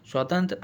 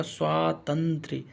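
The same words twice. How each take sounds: First: स्वातंत्र run together, "swaa-tantr"; mispronounced word. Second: स्वातंत्र slowly, "swaa... tan-trye"; correct pronunciation. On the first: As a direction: end स्वातंत्र on tr with no y. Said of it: "ऐसे नहीं लिखा जाता". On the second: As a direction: sound out स्वातंत्र in parts with a y-like ending. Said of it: "कैसे लिखा जाएगा?". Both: Shown as a demonstration.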